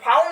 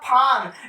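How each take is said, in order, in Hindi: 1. स्वर 'ow' जैसा फिसलता है। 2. स्वर सीधा लंबा 'aa' है। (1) "बहुत बच्चे इसको पढ़ देते हैं फाउन, फाउन नहीं होगा" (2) "सिर्फ क्या होगा फान"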